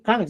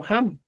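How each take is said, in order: First: "ham" dicho como la forma que no corresponde, con inicio más duro; pronunciación descartada. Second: "ham" con jota inicial suave y aspirada; pronunciación correcta. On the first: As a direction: contraejemplo de "ham" con consonante inicial dura. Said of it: "no estoy diciendo ham, sino ham". ("ham" como contraejemplo del profesor) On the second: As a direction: modelar "ham" empezando con aire, como jota. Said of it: "Escucha bien, no estoy diciendo". ("ham" aspirado, como ejemplo del profesor) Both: Shown as a demonstration.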